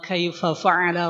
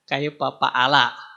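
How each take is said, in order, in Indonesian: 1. Kata kedua diawali dengan bunyi F. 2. Kata kedua diawali dengan bunyi P.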